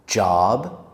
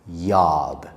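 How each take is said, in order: First: The word begins with a j sound. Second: The word begins with a y sound. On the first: The speaker calls it right. "I will say it correctly" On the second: The speaker calls it wrong. "I will say it incorrectly"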